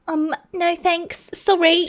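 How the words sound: It is said in a childlike voice.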